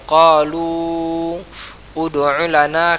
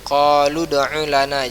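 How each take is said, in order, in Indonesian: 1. Vokal terpisah dibunyikan sebelum kata berikutnya. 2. Qalu langsung menyambung ke kata berikutnya. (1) "maka itu salah"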